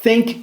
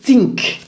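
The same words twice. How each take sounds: First: It begins with a soft breathy th sound. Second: It begins with a sharp t sound. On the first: The speaker calls it right. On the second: The speaker calls it wrong.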